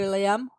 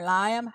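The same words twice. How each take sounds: First: Liam as LEE-um, two syllables; questioning Liam as LEE-um. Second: Liam as LYE-um, with a long i; trying Liam as LYE-um instead. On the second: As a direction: say Liam with an eye sound, LYE-um. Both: Shown as a demonstration. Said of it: "How do you say it?".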